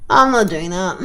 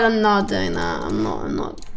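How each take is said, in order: First: Said in the usual way. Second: Mock deep refusal. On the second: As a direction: drop the voice way down, mock-stern. Refusing a game choice.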